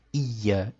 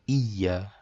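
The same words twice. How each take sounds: Both takes have the same delivery.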